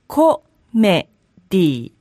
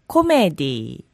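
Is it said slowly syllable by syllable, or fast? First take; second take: slowly; fast. First: It is said slowly, broken into syllables. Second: It is said quickly as one smooth word.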